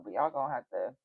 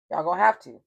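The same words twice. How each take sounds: First: Said in the usual way. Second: Louder, hammering the point home; firm loud insistence. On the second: Real, not acted. Telling the water signs they must refuse him, loud and firm. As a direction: say it like a final warning.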